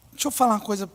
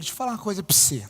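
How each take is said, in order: First: Said in the usual way. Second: Put-on fast, clipped Minas Gerais accent, vowels swallowed; quick Minas Gerais accent imitation; mineiro accent. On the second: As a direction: rattle it off like a mineiro. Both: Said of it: "vou falar que nem mineiro".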